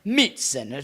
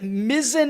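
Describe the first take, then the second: First: The name is said with Italian-style sounds. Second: The name is said with plain English sounds.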